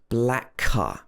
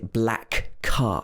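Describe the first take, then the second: First: The two k sounds blend into one. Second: Both k sounds are said separately. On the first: The speaker calls it right. "blend together" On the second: The speaker calls it wrong.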